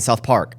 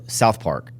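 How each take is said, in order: First: The stress falls in an unusual place. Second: The stress falls in the usual place. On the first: The speaker calls it wrong. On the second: The speaker calls it right.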